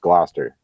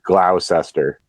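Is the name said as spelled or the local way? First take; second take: local way; as spelled. First: It is said the way locals say it. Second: It is read out the way it is spelled. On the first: This is how people from the area say it. The speaker calls it right. "to us, that's just Gloucester" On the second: An outsider reads the name from its spelling. The speaker calls it wrong. "it looks like Gloucester"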